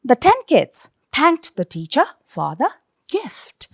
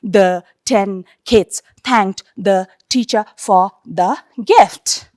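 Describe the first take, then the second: First: Put-on "the ten kids / thanked the teacher / for the gift", in phrases; group "the ten kids", then "thanked the teacher", then "for the gift"; natural phrasing. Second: Put-on "The ten kids thanked the teacher" read word by word; monotonous droning. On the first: Teacher showing students how to read like speaking, natural phrasing. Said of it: "like you are speaking". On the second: Teacher showing students droning from word to word, monotonous. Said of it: "Very monotonous". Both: Shown as a demonstration.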